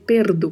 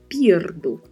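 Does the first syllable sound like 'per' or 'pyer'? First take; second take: per; pyer. First: The first syllable is plain 'per' without a glide. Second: The first syllable has a 'y' glide, 'pyer'. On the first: The speaker calls it wrong. "a gente pode errar com facilidade e querer dizer perdo" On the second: The speaker calls it right. "Tem uma letra I que precisa ser dita"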